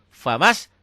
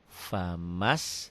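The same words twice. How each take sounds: First: It is said in a clipped, forceful burst. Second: It is said slowly and drawn out. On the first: "Metode hentak" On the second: "Pelan maksudnya pelan-pelan bacanya"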